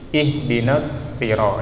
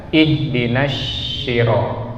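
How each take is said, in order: First: "Ihdinas siro" with a heavy s from the tongue tip; correct sad sound. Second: "ihdinas siro" with the s turned into sh; mistaken shin sound. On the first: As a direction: say "Ihdinas siro" on a clean s, not sh. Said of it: "Jadi kita baca di sini". ("Ihdinas siro" dengan bunyi sod dari ujung lidah) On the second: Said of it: "Jangan kita baca". ("ihdinas siro" dibaca keliru dengan bunyi syin) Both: Shown as a demonstration.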